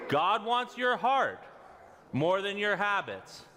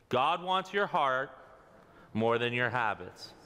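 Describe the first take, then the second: First: It is said excitedly, with more energy. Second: It is said calmly, with less energy.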